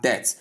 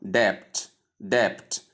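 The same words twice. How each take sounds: First: "debt" with the B left out; "debt" rhyming with "bet", B silent; correct debt, silent B. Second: "debt" with an audible B or P before the T; wrong debt, B sounded. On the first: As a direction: say "debt" like "det". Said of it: "pronounced simply as debt". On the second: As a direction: say "debt" as "debpt". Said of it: "pronouncing out the B". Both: Shown as a demonstration.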